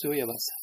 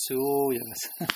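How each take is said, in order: First: Said in the usual way. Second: "Suyavasa" with the "Su" slowly stretched out; exaggerated long first syllable on "Suyavasa"; long vowel. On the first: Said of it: "if it's short vowel". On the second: Shown as a demonstration. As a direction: drag out the U in "Suyavasa". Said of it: "It's not Suyavasa".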